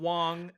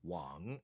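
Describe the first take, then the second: First: The pitch stays level and high throughout. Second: The pitch dips down and then rises. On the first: "tone number one would be" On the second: "tone three is the right tone ... It dips"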